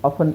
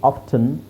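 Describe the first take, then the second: First: No t sound is heard in the middle. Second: A t sound is heard in the middle. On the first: The speaker calls it right. "ಆಫನ್ is better" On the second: The speaker calls it wrong. "ಆಫ್ಟನ್ ಅನ್ನೋದಕ್ಕಿಂತ"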